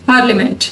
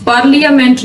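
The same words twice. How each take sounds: First: पार्लियामेंट as par-la-ment; the right way, पार्लियामेंट; correct, silent I. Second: पार्लियामेंट with the I said, par-li-a-ment; the wrong way, पार्लियामेंट; wrong pronunciation. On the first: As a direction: skip the I in पार्लियामेंट. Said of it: "आई जो है वो silent है". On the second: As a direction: sound every letter in पार्लियामेंट. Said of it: "इसको पार्लियामेंट नहीं कहते हैं". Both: Shown as a demonstration.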